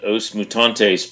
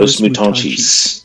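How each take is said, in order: First: The ending is said with a plain t sound. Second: The ending is said with a ch sound. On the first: The speaker calls it wrong. "I've always called this band Os Mutantes" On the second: The speaker calls it right. "with a CH towards the end"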